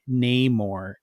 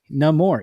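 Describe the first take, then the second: First: The first syllable has a hard A, like 'nay'. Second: The first syllable sounds like 'no', without hard A.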